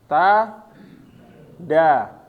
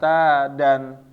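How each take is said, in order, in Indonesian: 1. Kata ini berakhir dengan a panjang, tanpa n. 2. Kata ini berakhir dengan bunyi n. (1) "hilang tanwinnya berubah menjadi mat ya" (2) "bukan ta dan"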